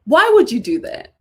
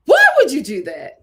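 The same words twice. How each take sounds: First: "would"重读，语气质问; stress on would. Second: "why"重读，拖长质问; stress on why. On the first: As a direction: lean hard on "would". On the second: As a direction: lean hard on "why". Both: Shown as a demonstration. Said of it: "repeated question".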